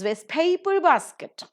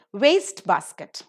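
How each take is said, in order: First: Waste paper basket with PAPER punched; stress on second word. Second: Waste basket with WASTE loud and long; stress on first word. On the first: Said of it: "will take the stress on the second". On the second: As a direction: slowly punch the start of waste basket. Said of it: "take the stress on the first syllable". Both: Shown as a demonstration.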